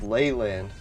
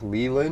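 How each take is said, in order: First: The first syllable sounds like 'lay'. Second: The first syllable does not sound like 'lay'. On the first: "sort of like ley lines" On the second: "I always thought that I like"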